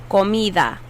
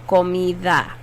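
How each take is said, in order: The two takes are said the same way.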